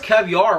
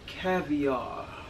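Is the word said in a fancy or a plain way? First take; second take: plain; fancy. First: The word is said casually in a plain tone. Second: The word is said grandly with a breathy ending. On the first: The speaker calls it wrong. "You can't just be like, oh, that's caviar right there" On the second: The speaker calls it right. "you gotta be more sophisticated with it"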